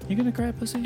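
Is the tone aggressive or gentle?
gentle. It is said in a gentle tone.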